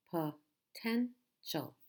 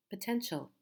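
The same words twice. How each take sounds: First: "potential" slowly split as po, ten, tial; syllable by syllable. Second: Said in the usual way. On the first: Shown as a demonstration. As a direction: pause between all three syllables of "potential". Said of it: "Three syllables". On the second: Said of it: "So again, we have".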